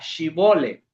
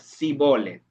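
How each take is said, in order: First: The word begins with an 'sh' sound. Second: The word begins with an 's' sound. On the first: The speaker belongs to the group being tested for. The speaker calls it right. "la prueba de si eran de los de Efraín o no era que dijeran la palabra" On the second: The speaker is from Ephraim. The speaker calls it wrong. "no sabían decir la Shin, sino que decían"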